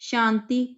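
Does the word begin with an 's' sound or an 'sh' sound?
sh. The word begins with an 'sh' sound. This is the standard form of the word. "ਸ ਪੈਰ ਬਿੰਦੀ ਉਚਾਰਨਾ ਹੈ"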